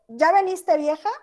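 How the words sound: It is said as a genuine question. The speaker is asking something. "Está preguntando"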